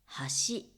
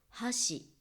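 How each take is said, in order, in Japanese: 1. 'bridge'のアクセントです。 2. 'chopsticks'のアクセントです。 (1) "アクセントは違うんですが、" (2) "アクセントは違うんですが、"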